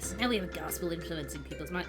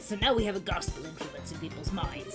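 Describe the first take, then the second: First: It is said in a plain, ordinary voice. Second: It is said in a gruff, angry old-man voice.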